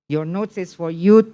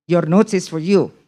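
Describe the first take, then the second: No difference in how they are said.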